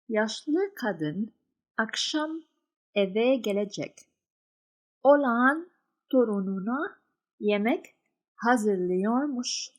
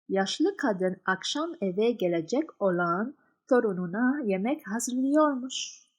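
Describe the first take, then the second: First: The sentence is read slowly. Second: The sentence is read faster.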